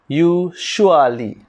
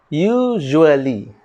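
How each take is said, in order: First: It is said in a common learner's way. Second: It is said in the standard way. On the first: The speaker calls it wrong. "some of us read usually. Wrong" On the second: The speaker calls it right. "The correct pronunciation is usually"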